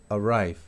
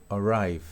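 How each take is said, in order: The two takes are said the same way.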